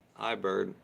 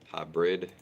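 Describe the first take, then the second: First: The second syllable sounds like 'bird'. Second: The second syllable sounds like 'brid'. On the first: The speaker calls it wrong. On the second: The speaker calls it right.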